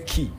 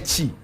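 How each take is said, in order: First: The syllable begins with a hard k sound. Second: The syllable begins with a ch sound. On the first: The speaker calls it wrong. "we don't actually say ki" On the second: The speaker calls it right. "We say chi"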